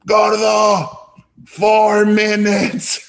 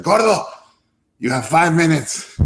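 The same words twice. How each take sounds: First: High, loud, slow mock shout of a deadline; hammed-up impatient mentor shouting; imitating Guillermo. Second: High, curt mock ultimatum; lightly voiced impatient boss; a hint of a teasing mentor setting a deadline; imitating Guillermo. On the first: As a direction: bark the countdown like a stern boss. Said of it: "And he goes". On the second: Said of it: "So he's like".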